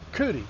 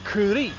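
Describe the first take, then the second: First: The final vowel is short. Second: The final vowel is long. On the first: The speaker calls it wrong. "some people say" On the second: The speaker calls it right. "there is a macron on the I, and so the word is actually"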